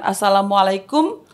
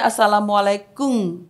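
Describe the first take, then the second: First: The greeting is said plainly, ending in m. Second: The greeting is said without a plain final m. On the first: "ketika mengucapkan assalamualaikum" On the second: "orang Jepang itu kan dia nggak ada akhiran N, M"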